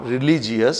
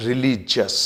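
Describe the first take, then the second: First: Religious ending in 'ji-us', 're-li-ji-us'; wrong pronunciation. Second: Religious in three beats, 're-LI-jus'; correct pronunciation. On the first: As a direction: slowly sound the i in religious, 'jee-us'. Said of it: "It's not religious". (religious का गलत उच्चारण, 'रिलीजियस') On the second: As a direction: slowly end religious on 'jus', no i. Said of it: "it's religious". (religious का सही उच्चारण, 'रिलीजस') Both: Shown as a demonstration.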